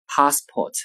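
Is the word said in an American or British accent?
British. It is said in a British English accent. "英式英语发音 passport"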